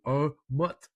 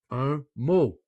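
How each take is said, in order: First: "mot" with a sounded T at the end; wrong final T. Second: Said in the usual way. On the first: Shown as a demonstration. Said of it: "it will not be". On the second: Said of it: "ça va être".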